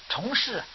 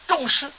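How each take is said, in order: First: The first syllable is read chóng. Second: The first syllable is read zhòng. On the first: The vows were made many times over. "念虫也行" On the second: The vows made are very weighty. "这个字念众行"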